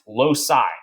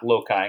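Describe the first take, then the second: First: The c is pronounced as an s sound. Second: The c is pronounced as a k sound. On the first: The speaker calls it right. "Loci, not loci, because city, icicle" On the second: The speaker calls it wrong. "not loci"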